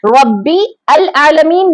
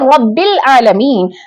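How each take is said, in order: First: The 'al' is said as a separate syllable. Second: The 'l' is linked straight onto 'rabb'. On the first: The speaker calls it wrong. "नहीं पढ़ रहे हैं हम" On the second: The speaker calls it right. "बल्कि"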